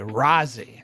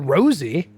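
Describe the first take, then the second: First: The first vowel is an open 'ah' sound. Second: The first vowel is a long 'oh' sound. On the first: The speaker calls it right. "Rozzy with an A" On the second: The speaker calls it wrong. "because you have an O in your name"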